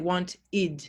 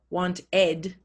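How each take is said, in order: First: The ending is said with an ih vowel. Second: The ending is said with an eh vowel. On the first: The speaker calls it right. "we say want id" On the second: The speaker calls it wrong. "we don't say want ed"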